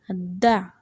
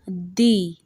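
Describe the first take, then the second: First: The vowel is a short, weak schwa. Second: The vowel is a full, unreduced vowel. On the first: "This uses the schwa sound" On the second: "The second way to pronounce it"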